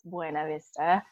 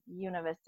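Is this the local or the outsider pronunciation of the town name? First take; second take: outsider; local. First: The name is said the way outsiders say it. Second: The name is said the way locals say it. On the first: The speaker is not from the town. "Otherwise, it's Buena Vista" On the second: The speaker is from the town. "you only call it Buena Vista if you're from there"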